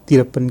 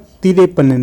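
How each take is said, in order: First: No vowel follows the 'r'. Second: An extra vowel 'e' follows the 'r'. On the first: The speaker calls it right. "तिरपन कहते हैं" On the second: The speaker calls it wrong. "नहीं कहते"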